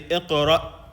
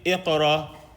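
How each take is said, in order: First: The word ends with a clear glottal stop. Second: The word ends openly without a glottal stop. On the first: The speaker calls it right. "You have to hear the stop" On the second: The speaker calls it wrong. "is that correct or incorrect?"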